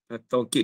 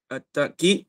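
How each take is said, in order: First: The middle of the word has a w sound. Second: The middle of the word has a glottal stop. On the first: "At-taukid bil waw" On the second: "dengan alif. Bil hamzah"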